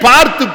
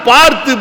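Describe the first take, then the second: No difference in how they are said.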